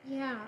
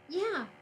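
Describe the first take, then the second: First: The line is said in a flat monotone. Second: The line is said with lively, varied expression. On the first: The speaker calls it right. "I said in a monotone" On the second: The speaker calls it wrong. "Wait, no"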